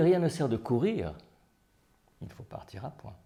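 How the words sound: One word is given clear emphasis.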